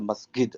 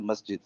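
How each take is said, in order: First: It is said with an Egyptian pronunciation. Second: It is said with a standard pronunciation. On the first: This is how an ordinary Egyptian speaker says it. "the Egyptian guy is a" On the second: This is how the speaker himself says it. "I say"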